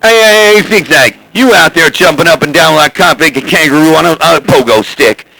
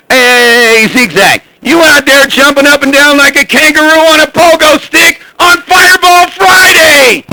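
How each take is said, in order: First: Said in the usual way. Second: Calling out much higher, shouting the end; radio shout. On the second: Real, not acted. Fireball hollering at Zigzag over the CB, rising to a shout. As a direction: yell it over the CB, building to Fireball Friday. Repeats the call, louder and higher.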